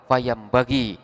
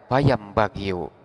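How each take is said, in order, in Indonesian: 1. Kata ini berakhir dengan vokal 'i'. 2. Kata ini berakhir dengan vokal 'u' yang ditambahkan. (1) "Maka dibacalah fayam bagi" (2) "Tidak boleh kita membaca fayam bagiu"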